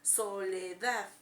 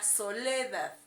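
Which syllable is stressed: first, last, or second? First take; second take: last; second. First: The stress is on the last syllable. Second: The stress is on the second syllable. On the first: "si creemos que entonces es en la A" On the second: "Si le ponemos en le"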